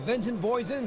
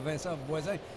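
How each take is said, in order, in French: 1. Le nom est prononcé avec un accent américain. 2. Le nom est prononcé avec un accent français. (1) "c'est comme ça qu'on doit le prononcer, puisqu'il est américain de la Californie" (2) "s'il habitait bien sûr chez nous"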